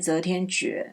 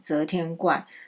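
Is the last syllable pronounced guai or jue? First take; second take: jue; guai. First: The last syllable is pronounced jue. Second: The last syllable is pronounced guai. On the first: The reading follows the meaning of decision. "我之前有念择天诀" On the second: The reading follows the dictionary. "国语词典上面是写怪"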